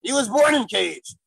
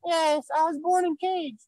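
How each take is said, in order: First: Said in the usual way. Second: Put-on high, childlike puppet voice; squeaky little baby voice; baby gorilla voice.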